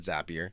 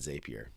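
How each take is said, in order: First: The word is said to rhyme with 'happier'. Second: The word is said not rhyming with 'happier'. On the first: "I call it Zapier um, because at one point they had a motto that said Zapier makes you happier" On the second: "most people actually pronounce it Zapier"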